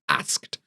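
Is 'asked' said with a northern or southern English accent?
northern. It is said in a northern English accent. "I'm from the north, I would say asked"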